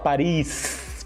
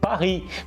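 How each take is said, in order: First: The word ends with an audible S sound. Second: The word ends without any S sound. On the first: The speaker calls it wrong. "não se fala Paris com S no final" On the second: The speaker calls it right. "se fala Paris"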